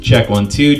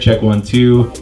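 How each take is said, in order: First: The voice sounds even, with balanced treble and bass. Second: The voice sounds dull and muffled, lacking treble. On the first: "that will give us a more balanced sound" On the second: "You don't hear any of that high end at all, hearing mostly low end really"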